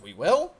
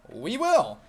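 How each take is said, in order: First: It sounds doubtful and hesitant. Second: It sounds upbeat and cheerful.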